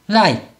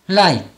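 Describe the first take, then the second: Both takes have the same delivery.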